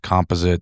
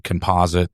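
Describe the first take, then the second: First: It is said the Canadian way. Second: It is said the American way.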